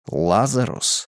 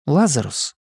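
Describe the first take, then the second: First: Said in the usual way. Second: Higher, wary question; questioning woman's voice. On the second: Acted. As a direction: call out his name warily. Simona calls him out.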